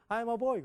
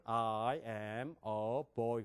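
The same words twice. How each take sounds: First: Put-on I'm a boy high and quick, "아임어보이"; Korean-style English. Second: Put-on I am a boy very slow and low, each word drawn out; American-style English. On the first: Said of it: "그런데 우리". (한국식으로 높고 빠른 I'm a boy) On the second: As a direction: drawl I am a boy deep. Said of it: "그 사람들은". (미국식으로 낮고 길게 끄는 I am a boy) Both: Shown as a demonstration.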